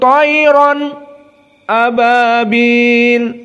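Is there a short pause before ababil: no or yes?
yes. There is a brief pause before ababil.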